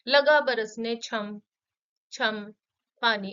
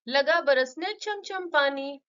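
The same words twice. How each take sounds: First: The repeated words are separated by a pause. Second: The repeated words run together without a pause. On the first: The speaker calls it wrong. "ऐसे नहीं बोलेंगे" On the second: The speaker calls it right. "उच्चारण करना भी एक साथ ही करना होता है"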